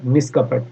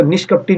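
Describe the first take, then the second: First: निष्कपट ending on a plain t; correct ending without ee. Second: निष्कपटी ending in "-tee"; faulty nish-kap-tee, set up for correction; wrong final ee. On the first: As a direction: say निष्कपट, no vowel at the end. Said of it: "क्या होता है?". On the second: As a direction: say निष्कपटी with an added long ee. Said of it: "निष्कपटी नहीं होता". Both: Shown as a demonstration.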